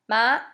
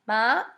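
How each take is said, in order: No difference in how they are said.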